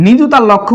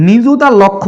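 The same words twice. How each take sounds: The two takes are said the same way.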